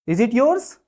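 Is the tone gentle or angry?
angry. It is asked in a threatening, angry tone.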